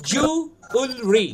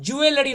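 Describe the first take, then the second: First: Slow জুয়েলারি as "ju... ul... ree"; three spaced syllables in জুয়েলারি; stretched model of জুয়েলারি; correct pronunciation. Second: জুয়েলারি as "ju-e-le-ri"; extra "e" in জুয়েলারি; common mispronunciation. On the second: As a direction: run all four syllables of জুয়েলারি. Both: Shown as a demonstration. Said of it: "জুয়েলারি নয় কিন্তু".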